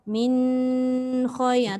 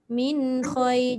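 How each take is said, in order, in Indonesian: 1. Bunyi sengau n dibaca terlalu lama. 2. Bunyi sengau n mengalir lancar ke kata berikutnya. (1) "kalau kita baca terlalu lama dekat dengung nun tu" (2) "jangan dia terputus je"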